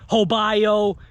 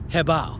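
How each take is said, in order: First: The name ends with a 'bye-oh' sound. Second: The name ends with a 'bow' sound. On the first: The speaker calls it wrong. "People call it Hobayo" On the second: The speaker calls it right. "it's called Hebao. And that's the way, proper way to pronunciate"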